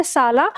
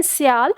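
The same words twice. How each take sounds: First: "साला" said loosely and easily, in one smooth flow; relaxed easy pronunciation. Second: "स्याल" said with a slightly effortful, strained tongue; tense careful pronunciation. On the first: Teacher contrasting the easy Hindi word with Sanskrit, relaxed flowing "साला". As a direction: let "साला" roll out effortlessly, no strain on the tongue. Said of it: "बहुत आराम से flow में बोलता".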